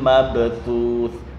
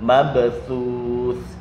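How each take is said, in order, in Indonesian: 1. Konsonan akhirnya adalah bunyi TH. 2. Konsonan akhirnya adalah bunyi TH.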